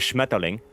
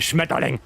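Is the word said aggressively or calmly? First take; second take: calmly; aggressively. First: The word is said in a calm, neutral way. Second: The word is said in a harsh, aggressive way.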